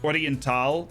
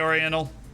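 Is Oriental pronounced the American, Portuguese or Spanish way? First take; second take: Portuguese; American. First: It is said with a Portuguese pronunciation. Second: It is said with an American English pronunciation. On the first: "the way a Portuguese person would pronounce the team name" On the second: "I think I'll stick with the, the American pronunciation"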